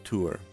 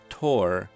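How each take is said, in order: First: The word rhymes with poor. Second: The word rhymes with core.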